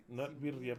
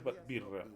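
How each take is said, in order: First: "birria" said with the full ria ending; three syllables, "bi-rri-a"; birria as wrong. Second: "birra" in two syllables, no ia; short clipped "bi-rra"; birra as right. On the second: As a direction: roll it as "birra". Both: Shown as a demonstration.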